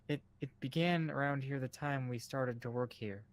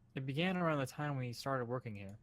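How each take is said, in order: First: It is said shyly, with hesitant pauses. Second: It is said smoothly, without hesitant pauses.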